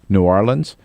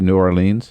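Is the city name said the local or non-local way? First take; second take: local; non-local. First: The name is said the local way. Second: The name is said the common non-local way. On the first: The speaker calls it right. "the local correct pronunciation is New Orleans" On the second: The speaker calls it wrong. "some people say New Orleans. No"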